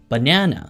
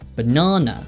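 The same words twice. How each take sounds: First: It is said with an American accent. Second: It is said with a British accent. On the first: "미국식으로는 banana 이렇게 발음하는구나" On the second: "영국식 발음기호를 읽어보면 banana"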